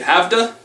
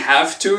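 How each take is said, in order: First: The words blend into one reduced form. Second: Both words are said fully and clearly. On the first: The speech is quick and lazy. "you say have to" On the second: The speech is careful. "Instead of saying have to"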